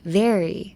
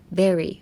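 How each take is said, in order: First: "very" with a clear buzzing V; corrected very. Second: "Very" with a B-like start; mistaken very. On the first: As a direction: teeth on lip to start "very". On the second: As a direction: let the lips close at the start of "Very". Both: Shown as a demonstration. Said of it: "間違いは間違うんですね".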